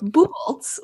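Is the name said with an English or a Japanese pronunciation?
English. The name is said with plain English sounds. "which is a Germanic last name"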